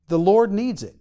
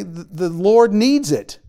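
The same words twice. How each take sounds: First: Said in the usual way. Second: Slow and louder, leaning on "needs"; slow emphatic. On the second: Shown as a demonstration. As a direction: spell out "The Lord needs it" slowly, stressing "needs".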